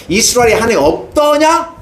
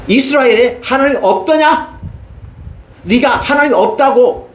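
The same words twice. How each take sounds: First: High, rising, aching question; grieving God. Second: God's rebuke. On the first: God grieving over Ahaziah's idolatry, aching rise. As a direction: let the sorrow rise on 없더냐. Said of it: "안타까워하는 거예요". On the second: God rebuking Ahaziah for seeking idols, slow and high. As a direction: ask it slowly, aching and stern. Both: Acted.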